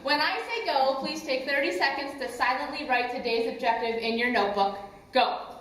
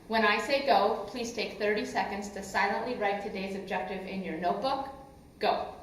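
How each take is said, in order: First: It is said very loudly. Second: It is said loudly.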